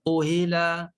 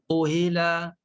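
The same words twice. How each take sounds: First: The middle sound is a clear, full h. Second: The same.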